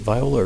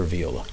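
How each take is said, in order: First: "viola" with first syllable like "vie"; VY-oh-la pronunciation. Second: "viola" with first syllable like "vee"; VEE-oh-la pronunciation. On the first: Questioner checking the word with witness, "viola" said vy-OH-la. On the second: Questioner offering witness the alternative, "viola" said vee-OH-la. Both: Shown as a demonstration. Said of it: "Is it viola or viola?".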